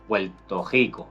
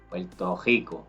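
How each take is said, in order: First: The R in Rico is made in the throat. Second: The R in Rico is made in the throat.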